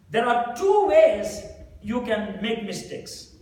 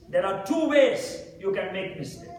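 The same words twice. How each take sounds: First: Slowed down, every word weighed; a preacher driving the point home; slow emphatic statement. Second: Said in the usual way. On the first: Shown as a demonstration. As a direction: lay it out slowly so it sinks in. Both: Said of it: "repeats the line".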